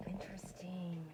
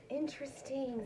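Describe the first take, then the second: First: Soft intrigued whisper with falling end. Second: Said in the usual way. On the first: Real, not acted. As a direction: breathe the word out, intrigued. Whispered then repeated aloud.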